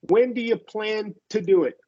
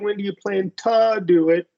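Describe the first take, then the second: First: It is said quickly, with 'to' reduced to 'ta'. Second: It is said slowly, with a full 'to' sound. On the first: The speaker calls it right. "it's more of a quicker" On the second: The speaker calls it wrong. "I didn't say"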